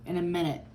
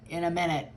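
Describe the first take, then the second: No difference in how they are said.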